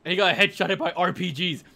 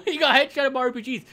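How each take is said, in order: First: Said in the usual way. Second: Excited repeat. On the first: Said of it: "repeats it louder". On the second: Real, not acted. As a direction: hit it again with glee. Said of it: "laughs then repeats faster".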